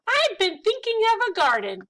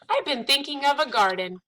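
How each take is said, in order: First: It is read in a put-on mouse voice. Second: It is read in the reader's ordinary voice.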